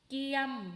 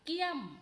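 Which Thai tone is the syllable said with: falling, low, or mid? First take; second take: mid; falling. First: The syllable has a mid level tone. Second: The syllable has a falling tone. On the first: "สามัญ" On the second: "โท"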